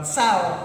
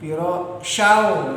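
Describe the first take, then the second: First: The word begins with a plain 's' sound. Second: The word begins with an 'sh' sound. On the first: The speaker calls it wrong. "bukan sao" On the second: The speaker calls it right. "nah itu"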